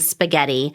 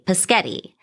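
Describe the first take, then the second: First: The word is pronounced in the standard way. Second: The opening sounds are swapped around. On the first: "instead of saying spaghetti" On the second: "they may say paschetti"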